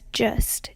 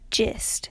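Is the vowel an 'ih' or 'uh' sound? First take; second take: uh; ih. First: The vowel is an open 'uh' sound. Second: The vowel is a closer 'ih' sound. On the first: This is the Tampa way of saying it. "The turn V wedge is pronounced" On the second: This is the eastern Kentucky way of saying it. "like those in eastern Kentucky"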